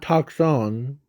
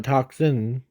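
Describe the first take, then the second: First: Toxon ending in "on"; the mistaken name. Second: Toxin ending in "in"; Toxin, second syllable as "sin"; the intended name. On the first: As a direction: say Toxon with a clear "-on" at the end. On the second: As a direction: say Toxin with a clear "-in" at the end. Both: Shown as a demonstration. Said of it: "not Toxon, but Toxin".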